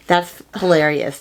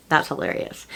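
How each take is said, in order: First: Said in the usual way. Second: A soft, breathy aside, half to herself; whispered aside. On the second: Real, not acted. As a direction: whisper it softly to yourself, amused. Repeats the reaction under her breath.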